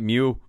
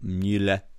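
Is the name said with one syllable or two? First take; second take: one; two. First: The name is said as one English-style syllable. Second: The name is said as two German-style syllables. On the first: The speaker calls it wrong. "I've been saying it wrong all week. I've been calling it Mule" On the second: The speaker calls it right. "I think yours sounds better"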